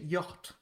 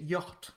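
First: It is said in a put-on, demure English accent. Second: It is said in a put-on, demure English accent.

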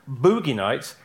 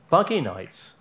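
First: The first vowel is a long oo sound. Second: The first vowel is a short uh sound. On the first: The speaker calls it wrong. "stop referring to his earlier film as Boogie Nights" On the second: The speaker calls it right. "it's pronounced Buggy Nights"

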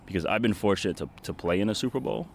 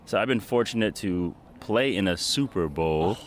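First: It is said at a normal pace. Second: It is said noticeably more slowly.

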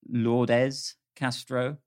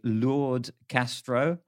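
First: The name is said in an English accent. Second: The name is said in a French accent. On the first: "but perhaps it's" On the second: "If I was pronouncing it in a French accent"

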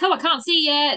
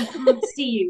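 First: It is said lightly and casually. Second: It is said in a very dramatic way.

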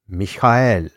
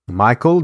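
First: The name is said with a non-English pronunciation. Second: The name is said with an English pronunciation. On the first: The speaker calls it right. "The correct way of speaking these names" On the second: The speaker calls it wrong. "Three names I managed to say as if they were English"

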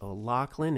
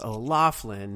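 First: The surname is said with the Gaelic pronunciation. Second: The surname is said with a non-Gaelic pronunciation. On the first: The speaker calls it right. "No, it's O'Loughlin. It's the Gaelic pronunciation" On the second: The speaker calls it wrong. "all you stupid people that thought it was O'Loughlin"

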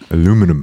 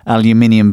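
First: The word is said with four syllables. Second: The word is said with five syllables. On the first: This is the American way of saying it. "Call it aluminum" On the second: This is the British way of saying it. "because there's an I next to the U"

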